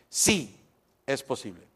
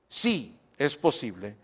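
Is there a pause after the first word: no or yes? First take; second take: yes; yes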